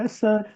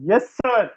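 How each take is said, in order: First: It is said quietly with little energy. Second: It is said loudly with lots of energy. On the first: The reply shows little enthusiasm. The speaker calls it wrong. "और तू कहता yes sir" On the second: The reply shows enthusiasm. The speaker calls it right. "तूने भी ऐसे ही बोलना था"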